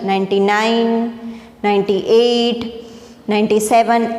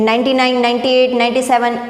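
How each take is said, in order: First: The numbers are counted slowly. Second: The numbers are counted quickly. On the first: The speaker calls it right. "શ્વાસની જે આપણી speed છે એ રીતે ધીમે ધીમે" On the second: The speaker calls it wrong. "એવી સ્પીડમાં જવાનું નથી"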